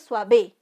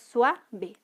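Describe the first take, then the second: First: The stress is on the second syllable. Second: The stress is on the first syllable. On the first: The speaker calls it wrong. "No es suave" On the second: The speaker calls it right. "sino es suave ... la mayor intensidad está en sua"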